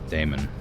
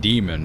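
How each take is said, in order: First: The first vowel sounds like the one in Seder. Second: The first vowel sounds like the one in Aegis. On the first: "it would be daemon. Like Seder" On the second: "I pronounce that demon because of Aegis"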